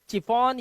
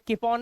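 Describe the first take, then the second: First: The word begins with a ch sound. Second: The word begins with a k sound. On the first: "इसे चिफॉन या किफॉन नहीं" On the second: "इसे चिफॉन या किफॉन नहीं"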